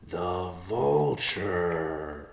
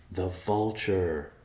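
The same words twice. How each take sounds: First: Very slow, dawning The vulture; slow epiphany. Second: Said in the usual way. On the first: Acted. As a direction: stretch The vulture out as it dawns. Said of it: "Riverpaw said in slow epiphany". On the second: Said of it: "in slow epiphany".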